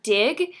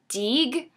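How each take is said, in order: First: The vowel is a short 'ih' sound. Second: The vowel is a long 'ee' sound. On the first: "whenever she said the word dig" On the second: "she would always say deeg"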